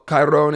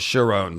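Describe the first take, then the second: First: The name begins with a hard, non-sh sound. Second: The name begins with a sh sound. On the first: The speaker calls it right. "it's closer than Chiron" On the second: The speaker calls it wrong. "It's not a sh sound. That's totally wrong"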